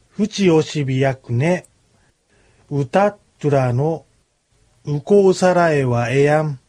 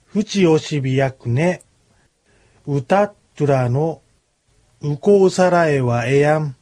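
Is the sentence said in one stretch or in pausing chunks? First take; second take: chunks; chunks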